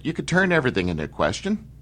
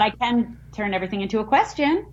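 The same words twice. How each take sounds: First: Higher, quick Irish lilt, ending on a rise; Irish accent, dipping down then swinging up into a question. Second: Attempted Irish lilt, rising like a question; Irish accent tried by ending on a question; botched Irish accent. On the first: Host corrects guest's attempt, demonstrating Irish question lilt. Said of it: "You gotta go down before you go up". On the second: Guest tries the host's Irish trick, botched Irish question lilt. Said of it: "No, that was horrible". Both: Shown as a demonstration.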